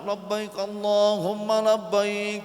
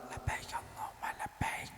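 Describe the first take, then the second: First: It is said loudly and strongly. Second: It is said quietly, almost whispered.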